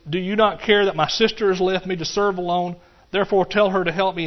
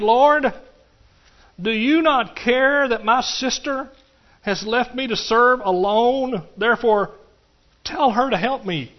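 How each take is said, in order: First: Said in the usual way. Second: High, slow, pleading whine; high drawn-out complaint to Jesus; Martha's complaint. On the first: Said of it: "She says". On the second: Acted. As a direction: plead like an overworked sister. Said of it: "approached Jesus and said".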